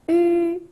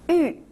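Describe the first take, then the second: First: The pitch stays high and level. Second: The pitch falls sharply from high.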